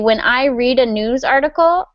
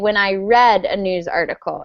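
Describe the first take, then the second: First: Read is said in its present-tense form. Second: Read is said in its past-tense form. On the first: The reading happens now. The speaker calls it wrong. "So you say" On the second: The reading happened in the past. The speaker calls it right. "You want to say, ... in the past"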